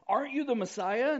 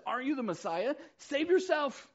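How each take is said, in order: First: Insulting jeer. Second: High, loud mocking challenge; insulting jeer. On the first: Retold or imitated. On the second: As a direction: hurl it at him like an insult. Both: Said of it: "hurled insults at him".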